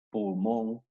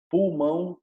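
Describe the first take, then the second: First: Pulmón ending in a plain "on"; Spanish -on ending. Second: Pulmón pitched up, ending in nasal "aun"; Portuguese nasal -ão. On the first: Teacher lists Spanish examples, pulmón ending in "on". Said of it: "en español en on". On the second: Teacher models Portuguese singular, Pulmón ending in nasal "aun". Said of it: "terminan en aun en portugués". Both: Shown as a demonstration.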